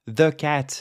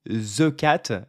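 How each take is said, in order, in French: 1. Le th dans 'the' est un son plein et net. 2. Le th dans 'the' est un son plus léger, intermédiaire. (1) "au lieu de dire the cat" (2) "c'est un peu plus léger, on va dire. Voilà, c'est pas complètement un the"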